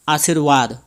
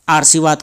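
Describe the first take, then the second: First: The r sound comes right before the v. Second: The r sound does not come before v. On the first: The speaker calls it right. "शुद्ध रूप होता है आशीर्वाद ... रॉ व से पहले आ रहा है" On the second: The speaker calls it wrong. "उसे हम आशीर्वाद कर देते हैं"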